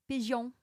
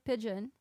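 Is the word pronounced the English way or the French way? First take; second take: French; English. First: The word is pronounced in a French way. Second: The word is pronounced in an English way. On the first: "a French person say pigeon" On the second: "instead of pigeon"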